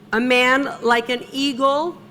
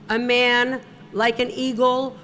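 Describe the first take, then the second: No difference in how they are said.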